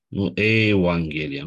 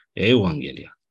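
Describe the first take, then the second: First: Evanghelia with a hard g, spelled out slowly; wrong pronunciation. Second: Evanghelia with a w sound, ewanghelia; correct pronunciation. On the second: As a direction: glide it: ewanghelia, in one breath. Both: Shown as a demonstration.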